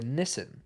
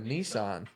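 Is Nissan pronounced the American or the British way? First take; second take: British; American. First: Nissan is said with a British pronunciation. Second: Nissan is said with an American pronunciation.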